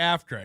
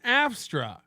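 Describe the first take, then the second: First: The word is said without an s sound. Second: The word is said with an s sound.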